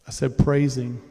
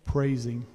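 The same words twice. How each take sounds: First: Praising said louder and hammered; emphatic. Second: Said in the usual way. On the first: Shown as a demonstration. Preacher repeats his word to the congregation, louder and emphatic.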